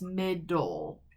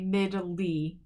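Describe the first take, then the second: First: The word ends with an 'ul' sound. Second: The word ends with an 'ee' sound. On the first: The speaker calls it right. "this E is silent and it's just middle" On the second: The speaker calls it wrong. "We don't say middly"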